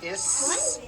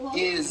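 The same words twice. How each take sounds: First: The word ends with a hissing, unvoiced s. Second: The word ends with a buzzing, voiced z. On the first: The speaker calls it wrong. "It's not is unvoiced" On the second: The speaker calls it right. "it's pronounced as if it were a Z"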